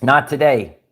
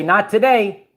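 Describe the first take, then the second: First: "Not today" dropped lower and final; firm repeat. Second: "Not today" said with a higher lift; rising, emphatic "Not today"; defiant declaration. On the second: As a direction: announce "Not today" brightly and firmly. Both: Shown as a demonstration. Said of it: "But you have to say".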